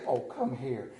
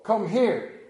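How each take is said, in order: First: Lower, softer call to the dog; imitating wife's coaxing. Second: Firm call to a dog; plain command. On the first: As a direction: coax the dog over like his wife. Wife calling the dog, imitated. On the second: Retold or imitated. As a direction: order the dog over. His own call to the dog.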